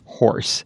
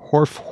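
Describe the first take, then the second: First: The word ends with an S sound. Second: The word ends with an F sound. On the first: "what I really mean to make is an S sound" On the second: "when you hear me make an F sound"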